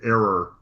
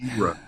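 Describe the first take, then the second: First: The word sounds like 'error'. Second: The word sounds clearly like 'era'. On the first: It sounds like a mistake, not a time period. The speaker calls it wrong. "before the Common Error" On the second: It names a time period. The speaker calls it right. "No, era"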